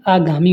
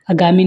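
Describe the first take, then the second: First: आगामी with a long opening aa; correct long vowel. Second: आगामी with a short first a; wrong vowel length. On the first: Teacher corrects students, long first vowel. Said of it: "होता है". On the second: Teacher shows students the mistake, short first vowel. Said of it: "नहीं". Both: Shown as a demonstration.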